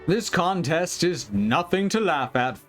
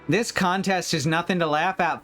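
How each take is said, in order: First: It is said in the owl's voice. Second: It is said in the girl character's voice.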